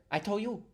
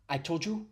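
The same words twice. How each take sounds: First: "I told you" said as "I tol' you"; higher-pitched "I tol' you", no D; D dropped. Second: "I told you" with the D sounded, rising; "I told you" pitched up, D still heard; imitated Asian accent. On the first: Shown as a demonstration. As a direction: drop the D in "told", enunciating "I told you". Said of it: "It's getting rid of the D". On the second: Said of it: "the stereotypical Asian accent is".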